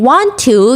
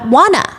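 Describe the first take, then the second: First: The two words are said separately and fully. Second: The two words are run together into one. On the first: "Instead of saying want to" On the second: "you say"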